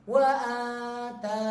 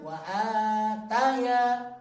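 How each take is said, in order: First: It ends without a 'ya' sound. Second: It ends with an added 'ya' sound. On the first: The speaker calls it right. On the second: The speaker calls it wrong.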